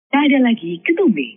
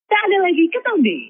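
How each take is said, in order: First: The voice is pitched low. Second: The voice is pitched high.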